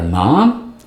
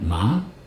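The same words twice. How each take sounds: First: The word is said loudly. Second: The word is said softly.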